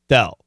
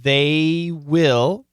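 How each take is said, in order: First: The words are contracted into one syllable. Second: Two full words are said separately.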